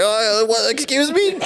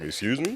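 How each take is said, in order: First: Way up high, an offended squeak; mock a man who is suddenly flustered and outraged; mock prissy indignation. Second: Low and quiet, a cool challenge; deep-voiced Sam. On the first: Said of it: "He thought he was gonna like". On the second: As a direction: answer calmly, deep, unimpressed. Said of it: "Sam was like".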